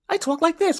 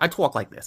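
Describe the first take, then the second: First: It is said in a high-pitched voice. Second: It is said in his normal voice.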